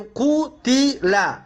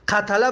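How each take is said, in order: First: قتل said slowly as qu-ti-la; u then i in قتل; passive vowels. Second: Said in the usual way. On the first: Shown as a demonstration. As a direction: sound out قتل as "qutila", syllable by syllable.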